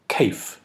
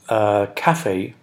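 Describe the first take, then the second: First: The final e is silent. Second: The final e is sounded. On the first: "a little linguistic pronunciation joke" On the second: "was to pronounce cafe as cafe"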